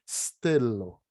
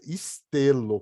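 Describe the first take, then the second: First: The word starts directly with a hissed s. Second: A vowel is added before the initial s. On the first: The speaker calls it right. "Você sibila e fala o T" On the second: The speaker calls it wrong. "com i na frente"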